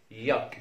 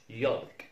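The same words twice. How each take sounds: First: Yolk with no L sound, like "yok"; ياك pronounced "yok", straight from vowel to K; correct silent L. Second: يالك with the L pronounced, "yolk"; mispronounced يالك, L sounded out; wrongly sounded L. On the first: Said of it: "ما نقولش يالك". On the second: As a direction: say يالك with an audible L before the K. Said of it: "ما نقولش". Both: Shown as a demonstration.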